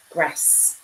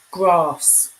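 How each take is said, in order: First: Grass with a short flat a, softly; northern English grass, short a as in cat. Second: Grass with a long ah, said louder; southern English grass, grahss with a long open vowel. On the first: Streamer contrasting regional grass, short-a northern grass. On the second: Streamer contrasting regional grass, long-ah grahss. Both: Shown as a demonstration. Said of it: "It's not lunch, dinner, tea".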